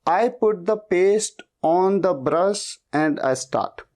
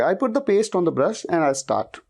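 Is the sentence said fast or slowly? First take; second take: slowly; fast. First: The sentence is spoken slowly and carefully. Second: The sentence is spoken quickly and fluently. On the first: The speaker is still learning the sentence. "शुरुआत में ... शायद आप ऐसे बोलोगे" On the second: The speaker has practised the sentence for days. "Speed में बोल लोगे"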